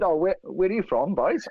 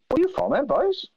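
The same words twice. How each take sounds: First: Said in the usual way. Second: High-pitched, wrong accent for the impression; high Rumney-style accent, badly missing the target; botched impression accent. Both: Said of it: "Not that accent".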